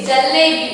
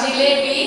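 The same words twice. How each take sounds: First: जलेबी with a short a after the j, ja-le-bi; correct Hindi pronunciation. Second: जिलेबी with an i after the j, ji-le-bi; the form to avoid. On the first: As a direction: teach जलेबी clearly as ja-le-bi. (जलेबी, ज पर छोटा अ, साफ़ उच्चारण) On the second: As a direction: show जिलेबी as the ji version not to use. (जिलेबी, ज पर इ की मात्रा, गलत उच्चारण) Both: Shown as a demonstration. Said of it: "not जिलेबी".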